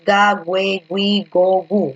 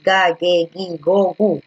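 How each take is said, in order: First: "güe, gui" as gweh, gwee inside the syllable chant; u pronounced. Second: "ge, gi" as hard-g geh, gee, no w; u silent. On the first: Teacher recites the wrong series, "güe, gui" with u sounded. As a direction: recite "ga, güe, gui, go, gu" with w glides in the middle two. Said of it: "Tú no dices". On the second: Teacher corrects the series, "ge, gi" without any w. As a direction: recite "ga, ge, gi, go, gu" slowly with hard g throughout. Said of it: "No, tú dices". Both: Shown as a demonstration.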